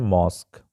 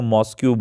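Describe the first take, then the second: First: The word ends with a plain 'k' sound. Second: The word ends with a 'kyoo' sound. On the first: The speaker calls it right. "सही pronunciation है मॉस्क" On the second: The speaker calls it wrong. "बहुत सारे बच्चे इसको मॉस्क्यू बोलते हैं"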